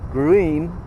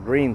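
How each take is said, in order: First: The name is said with a German-style vowel. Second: The name sounds exactly like English 'green'. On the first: This is the original German name. "That's German" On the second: This is how local people say it. "the locals pronounce it Green"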